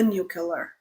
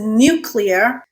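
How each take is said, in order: First: The ending sounds like killer, not clear. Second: The ending sounds like the word clear. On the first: The speaker calls it wrong. "stop already with the nuclear" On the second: The speaker calls it right. "it is nuclear"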